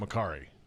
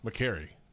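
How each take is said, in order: First: The middle syllable sounds like 'car'. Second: The middle syllable sounds like 'care'. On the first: The speaker calls it wrong. "McCarry is wrong" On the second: The speaker calls it right. "McCarry's how it's supposed to be said"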